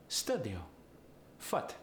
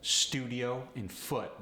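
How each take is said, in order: First: "studio. Foot." as stuh-dio, futt; Polish-accented "studio. Foot." with uh for oo; Polish uh sound. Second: Said in the usual way. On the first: Shown as a demonstration. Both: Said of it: "The oo sound goes to the uh sound".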